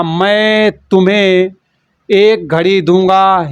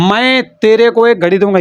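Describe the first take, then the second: First: Very slow, each word spelled out for students; teacher models the right sentence slowly; careful correct form. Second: Mock wrong usage. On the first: Teacher correcting student's wrong sentence, slow and deliberate. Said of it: "तो यहाँ पर तेरे को नहीं होगा". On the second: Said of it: "ये तेरे को मेरे को कौन सी भाषा". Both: Shown as a demonstration.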